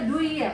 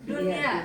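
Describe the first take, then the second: First: The n is dropped, merging into the y. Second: The n is pronounced clearly before the y. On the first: The speaker calls it wrong. "Kan harusnya duya" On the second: The speaker calls it right. "bacanya bunyan sama dunia"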